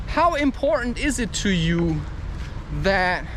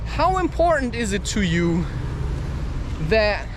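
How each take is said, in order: Both takes have the same delivery.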